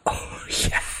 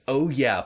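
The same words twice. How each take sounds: First: It is said breathily, while laughing. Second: It is said in a plain voice.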